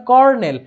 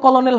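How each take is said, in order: First: "কর্নেল" in two syllables, kor-nel; correct pronunciation. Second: "কলোনেল" read as spelt, ko-lo-nel; wrong pronunciation. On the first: Teacher giving the right sound, "কর্নেল" said kor-nel with an R. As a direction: say "কর্নেল" with an R, no middle L. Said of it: "উচ্চারণ হবে কর্নেল". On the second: Teacher showing what not to say, "কলোনেল" in three syllables with an L. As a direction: sound out the L in the middle of "কলোনেল". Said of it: "উচ্চারণ কিন্তু কলোনেল হবে না". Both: Shown as a demonstration.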